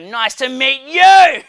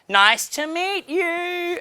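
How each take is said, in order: First: It is screamed loudly. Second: It is said at a normal, quiet volume.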